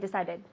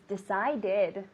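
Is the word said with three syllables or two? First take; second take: two; three. First: The word is squeezed quickly into two syllables. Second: The word is said with three full syllables. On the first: The speaker calls it wrong. "don't say decided" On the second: The speaker calls it right. "It's not fast. It's an extra syllable"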